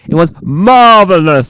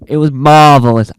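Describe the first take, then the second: First: It is said in an odd put-on voice. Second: It is said in a normal voice.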